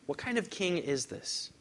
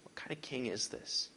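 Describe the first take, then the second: First: Plain question. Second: Breathless whisper, stress on king; whispered question. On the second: Preacher repeats the question to the congregation, whispered. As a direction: hush it to a whisper. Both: Shown as a demonstration.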